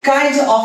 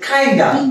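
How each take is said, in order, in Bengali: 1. প্রতিটি শব্দ আলাদাভাবে ও পূর্ণরূপে উচ্চারিত হয়। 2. শব্দগুলো মিশে একটি ছোট রূপে পরিণত হয়। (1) "কাইন্ড অফ এর বদলে" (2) "ইউজ করতে পারি কাইন্ডা"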